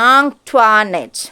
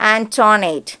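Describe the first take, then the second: First: The name is said as 'ahn-twa-net'. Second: The name is said as 'an-toh-net'. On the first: This is how the girl herself says her name. The speaker calls it right. "Correct ആ പേരിൻ്റെ pronunciation" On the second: This is how most classmates and teachers said it. The speaker calls it wrong. "Most of them pronounced it as ആന്റോണേറ്റ്"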